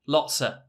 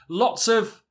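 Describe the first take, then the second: First: The word of is reduced to a. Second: The word of is said in full.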